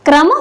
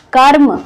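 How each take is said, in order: First: क्रम with क and र blended at the start; r after k. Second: कर्म with the र held just before म. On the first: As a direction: run k straight into r in क्रम. (क्रम में क के साथ र मिलाकर बोलें) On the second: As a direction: say kar, then m, in कर्म. (कर्म में म से पहले र बोलें) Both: Shown as a demonstration. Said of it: "दोनों के उच्चारण में कितना अंतर है".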